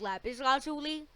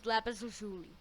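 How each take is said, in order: First: "lazuli" as LAH-zoo-lee, higher; open, stressed LAH in "lazuli"; first pronunciation. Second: "lazuli" as luh-ZOO-lee; second pronunciation. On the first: Viewer quoting the video's earlier version, "lazuli" as raised LAH-zoo-lee. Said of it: "Before he said". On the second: Viewer quoting the video's later version, "lazuli" as luh-ZOO-lee. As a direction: stress ZOO in "lazuli", first vowel reduced. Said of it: "now he says". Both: Retold or imitated.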